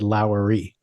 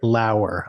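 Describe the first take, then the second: First: The name ends in an extra 'ee' sound. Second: The name ends in a short 'er' sound. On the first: The speaker calls it wrong. "I keep mispronouncing this actress's name" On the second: The speaker calls it right. "So it's Britt Lauer"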